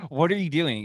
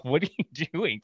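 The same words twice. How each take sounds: First: A bit louder, more insistent; louder confused customer. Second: Puzzled, rising question from the chair; confused customer. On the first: Customer still spinning, mock exasperated. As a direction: demand it this time. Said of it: "Finally, he's all". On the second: Customer spun in barber chair, mock baffled. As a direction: act baffled as he's spun. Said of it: "The guy's all". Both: Retold or imitated.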